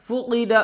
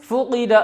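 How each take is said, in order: No difference in how they are said.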